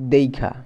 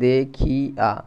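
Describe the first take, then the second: First: The i vowel moves before the kh sound. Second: The i vowel comes after the kh sound. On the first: "এটা দেখিয়াটা কী হবে, দেইখা" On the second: "এটা যদি আমরা করি যে দেখিয়া"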